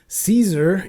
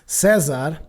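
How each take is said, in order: First: The name is said with English pronunciation. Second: The name is said with Portuguese pronunciation. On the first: The speaker calls it wrong. "I probably shouldn't say Caesar" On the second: The speaker calls it right. "we actually pronounce it Cesar"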